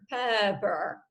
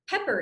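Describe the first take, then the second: First: The word is said slowly and sluggishly. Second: The word is said quickly and energetically. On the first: It sounds drunk. The speaker calls it wrong. "which sounds like you've spent a little bit too much time at the bar" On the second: It sounds exciting. The speaker calls it right. "pepper is an upper"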